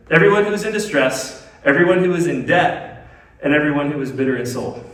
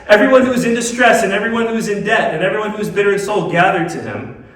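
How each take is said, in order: First: Measured scripture read, item by item; deliberate re-reading. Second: High, loud scripture read in one driving run; run-through scripture reading. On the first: Preacher re-reading so listeners catch it, deliberate and spaced. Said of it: "Let me read that again and just, like, catch it". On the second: Preacher quoting scripture to the congregation, high running read. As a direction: read the list straight through, raised voice easing slightly. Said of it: "Let me read that again". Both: Real, not acted.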